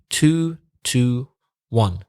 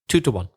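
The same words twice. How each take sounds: First: The phrase is said slowly and carefully. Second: The phrase is said quickly and run together.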